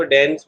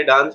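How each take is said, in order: First: "डांस" with the vowel of cat, like dans/dens; American pronunciation. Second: "डांस" with a long open aa, as daans; British pronunciation. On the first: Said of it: "American वाले इसको डांस बोलते हैं". (अमेरिकी उच्चारण, डांस को डैंस की तरह) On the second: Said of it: "British वाले डांस बोलते हैं". (ब्रिटिश उच्चारण, डांस में लंबा आ) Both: Shown as a demonstration.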